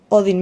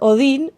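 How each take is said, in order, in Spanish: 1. El nombre se pronuncia a la manera inglesa. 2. El nombre se pronuncia a la manera española.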